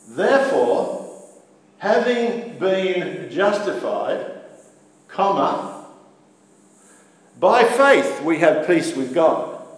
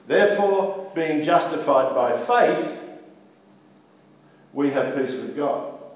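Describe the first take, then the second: First: The pause comes before 'by faith'. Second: The pause comes after 'by faith'.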